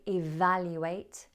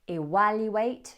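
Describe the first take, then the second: First: It is said with a V sound. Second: It is said with a W sound. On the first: The speaker calls it right. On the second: The speaker calls it wrong.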